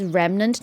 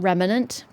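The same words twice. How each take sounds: First: The word is said plainly, with no added sounds. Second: The word is said with extra sounds added. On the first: The speaker calls it right. "It says remnant" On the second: The speaker calls it wrong. "not remnant. Please don't put extra letters into the words"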